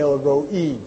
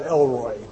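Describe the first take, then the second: First: It is said the Hebrew way, as El-Roi. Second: It is said like the English name Elroy. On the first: The speaker calls it right. "the actual correct Hebrew pronunciation of that would be El-Roi" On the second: The speaker calls it wrong. "not Elroy"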